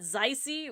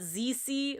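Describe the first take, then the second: First: It is pronounced with a German-sounding lilt. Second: It is pronounced the Latin way. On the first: It gives the name a German flavor. "which is putting a German lilt to it" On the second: It follows how the Latin source word is pronounced. "the way that the Latin section of the word that it's from is pronounced"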